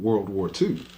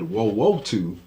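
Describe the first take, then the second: First: The r and l sounds are clearly pronounced. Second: The r and l sounds are dropped. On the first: The speaker calls it right. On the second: The speaker calls it wrong.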